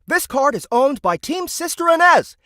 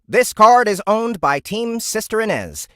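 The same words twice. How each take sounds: First: It is spoken in a video-game announcer voice. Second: It is spoken in a plain computer-like voice. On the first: "I'll do it in the Pokemon Stadium voice" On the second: "normal A I voice"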